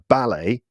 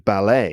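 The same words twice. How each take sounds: First: The stress is on the first syllable. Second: The stress is on the last syllable. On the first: This is the British pronunciation. "in the U K, they are pronounced with the stress on the first syllable" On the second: This is the American pronunciation. "in America, these words would probably be pronounced with the stress on the last syllable"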